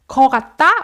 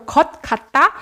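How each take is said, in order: First: The first word ends in a plain vowel. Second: The first word ends in a t-like consonant. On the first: This is the casual spoken form. "in spoken form, you can say 거" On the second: This is the proper written form. "것 kind of sounds like a textbook"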